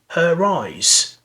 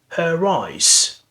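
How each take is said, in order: First: An r sound links the two words. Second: The same.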